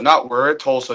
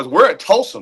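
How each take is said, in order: First: It is said in a flat, let-down tone. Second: It is said in a lively, enthusiastic tone. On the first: Being here feels like a step down. The speaker calls it wrong. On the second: Being here is something to be proud of. The speaker calls it right. "No, it's"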